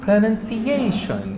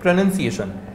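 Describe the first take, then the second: First: The word is said with an exaggerated British style. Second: The word is said plainly, without added style. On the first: The speaker calls it wrong. "तो ये over acting, ये style हो गया।" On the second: The speaker calls it right. "तो ये pronunciation है, ये उच्चारण है।"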